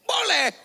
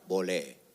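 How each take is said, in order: First: The word is shouted loudly. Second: The word is said at half voice.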